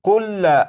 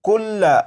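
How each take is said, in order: First: The word ends with a short 'a' vowel. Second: The same.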